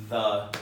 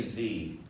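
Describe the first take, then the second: First: "the" with a neutral vowel; "the" as thuh. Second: "the" with a long E; "the" as thee. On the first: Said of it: "most people say the". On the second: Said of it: "Some people say the". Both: Shown as a demonstration.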